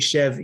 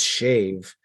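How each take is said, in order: First: The vowel sounds like 'eh' as in bed. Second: The vowel sounds like 'ay' as in day. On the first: This is how people usually say it. "they say Chev usually" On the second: This is the technically correct form. "technically it is shave"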